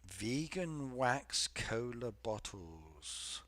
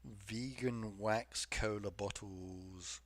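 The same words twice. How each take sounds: First: Disbelieving. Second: Disgusted. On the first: Repeats chat phrase in disbelief. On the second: Repeats again, disgusted. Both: Real, not acted.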